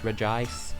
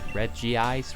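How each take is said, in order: First: The name is said as one blended word. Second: The name sounds like 'Reggie' followed by 'ice'. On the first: This is how the speaker thinks it should be said. The speaker calls it right. "because it's Regice" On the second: This is how others pronounced it. The speaker calls it wrong. "people would pronounce Regice as Reggie Ice"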